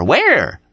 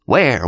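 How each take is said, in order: First: Urgent yell. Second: Higher, searching 'Where?' called out; eager call. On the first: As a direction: shout 'Where?' impatiently. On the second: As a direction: ask 'Where?' eagerly, falling at the end. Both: Acted. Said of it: "Dean was yelling".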